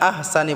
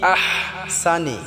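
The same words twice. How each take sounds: First: The h is a light, plain breathy sound. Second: The h is pressed and strained in the throat. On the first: The speaker calls it wrong. "আহসানি বললে হবে না" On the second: The speaker calls it right. "বড় হাটাকে গলায় চাপ দিয়ে উচ্চারণ করতে হবে"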